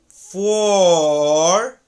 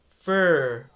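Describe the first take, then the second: First: The vowel is a long, full aw sound. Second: The vowel is reduced to a short uh. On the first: "if you elongate the word a little bit by saying it as for" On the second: "this word for gets reduced to fur"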